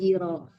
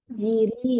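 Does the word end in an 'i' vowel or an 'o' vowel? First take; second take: o; i. First: The final syllable ends with an 'o' vowel. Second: The final syllable ends with an 'i' vowel. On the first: The speaker calls it wrong. "bukan jiro" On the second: The speaker calls it right. "ditandi harakatnya patah atau kasrah"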